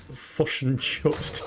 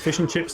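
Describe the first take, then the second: First: The vowels in fish and chips sound like 'u'. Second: The vowels in fish and chips sound like 'i'. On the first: This is how the partner says it. "to my missus" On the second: This is how one person says it. "to me"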